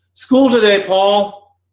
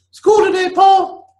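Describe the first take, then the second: First: High mother's voice, not quite there; mother's voice, first try. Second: Very high, loud calling mother; mother's voice, redone. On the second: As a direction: call him much higher and louder, like a mother. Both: Acted.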